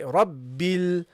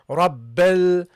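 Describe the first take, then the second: First: The vowel after the b is a clear i. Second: The vowel after the b sounds like e. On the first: The speaker calls it right. "We want to pronounce it a proper kasra" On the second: The speaker calls it wrong. "So you don't say Rabbel"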